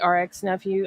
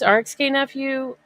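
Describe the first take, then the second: First: The letter K is left silent in the name. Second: The letter K is pronounced in the name. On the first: "the K could be, you know, silent" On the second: "I think it's R X K Nephew"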